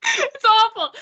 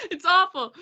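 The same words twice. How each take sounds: First: "It's awful" said high and loud through real laughter; giggling "It's awful"; laughing. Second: Said in the usual way. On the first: Real, not acted. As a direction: laugh it out, embarrassed. Laughing at her failed accent.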